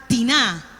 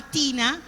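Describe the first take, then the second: First: Tina said the local Spanish way of Colón; Colón pronunciation. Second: Tina said the English way, as the neighbor said it; English name as said. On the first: Pastor shows how Colón neighbors said Tina, local Spanish way. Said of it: "Para nosotros era Tina". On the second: Pastor recalls an English-speaking neighbor, says Tina the English way. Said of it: "pero no era Tina". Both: Shown as a demonstration.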